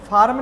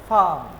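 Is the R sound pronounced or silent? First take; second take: pronounced; silent. First: The R sound is pronounced. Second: The R sound is silent. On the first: The speaker calls it wrong. "तो इसको फार्म नहीं बोलेंगे" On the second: The speaker calls it right. "इसको बोलेंगे फार्म"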